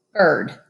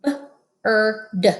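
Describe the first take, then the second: First: Said in the usual way. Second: B, er, d segmented slowly; sounded out. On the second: Shown as a demonstration. Teacher sounding out B-er-d for kids. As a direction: stretch bird into b-er-d. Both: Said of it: "Read with me".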